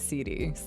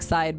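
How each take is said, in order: First: The name is said as two syllables. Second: The name is said as one syllable. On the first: The speaker calls it right. "but it's actually C D" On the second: The speaker calls it wrong. "my name looks like Side"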